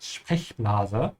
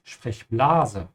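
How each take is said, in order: First: Sprechblase with a stretched E; long E in Sprechblase. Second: Sprechblase with the A stretched; wrong stress on A. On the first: Teacher showing the right way to say Sprechblase, stretching the E. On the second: Teacher showing the wrong way, stretching the A in Sprechblase. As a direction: draw out the A in Sprechblase. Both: Shown as a demonstration. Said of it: "you have to stretch the E and not the A".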